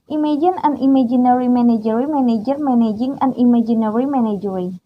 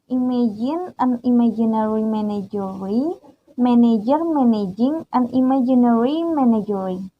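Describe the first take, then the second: First: It is said fast. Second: It is said at normal speed.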